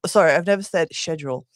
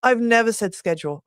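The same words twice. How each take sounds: First: "schedule" as SHED-jool; British schedule. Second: "schedule" said as "skedule", hard k; "schedule" as SKED-jool; American schedule. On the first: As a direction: correct yourself to "schedule" with sh, British style. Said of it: "the British way to say is schedule". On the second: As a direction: say "schedule" with a sk sound, American style. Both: Shown as a demonstration.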